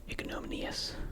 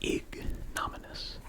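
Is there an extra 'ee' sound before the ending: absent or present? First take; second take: present; absent. First: It ends '-minee-us' with an extra vowel. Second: It ends '-minus' with no extra vowel.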